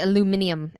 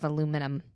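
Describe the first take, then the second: First: The word is said the British way. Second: The word is said the American way. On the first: "where they say aluminium" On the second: "instead of aluminum"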